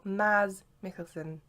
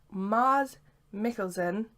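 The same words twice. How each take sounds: First: "Maz" drawn out with short a; short-A pronunciation. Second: "Mars" drawn out with open ah; long-A pronunciation. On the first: Fan comparing name options, "Maz" with short a. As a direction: slowly sound out "Maz", vowel as in jazz. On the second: Fan comparing name options, "Mars" with long ah. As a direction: slowly sound out "Mars", vowel as in father. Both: Shown as a demonstration. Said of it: "excuse me for butchering the name".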